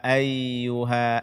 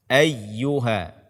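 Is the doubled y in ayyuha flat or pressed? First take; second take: flat; pressed. First: The doubled y is said flat without force. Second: The doubled y is pressed with some force. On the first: The speaker calls it wrong. "membaca ya tasydid dengan datar atau tanpa ditekan" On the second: The speaker calls it right. "sedikit ditekan"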